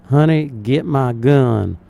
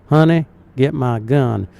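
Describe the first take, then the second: Both takes have the same delivery.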